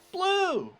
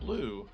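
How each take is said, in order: First: It is said with lively enthusiasm. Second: It is said flatly, without enthusiasm. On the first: The speaker calls it right. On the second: The speaker calls it wrong.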